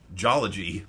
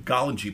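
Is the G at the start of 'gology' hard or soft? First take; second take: soft; hard. First: The G is soft, like a J sound. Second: The G is hard, like in golly. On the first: The speaker calls it wrong. "I'm pronouncing it wrong" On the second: The speaker calls it right. "has the same consonant sound as golly G"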